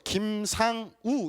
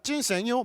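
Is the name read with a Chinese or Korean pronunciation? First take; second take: Korean; Chinese. First: The name is read with a Korean pronunciation. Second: The name is read with a Chinese pronunciation. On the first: "한국말로는 이렇게 있죠" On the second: "중국식 발음을 하니까"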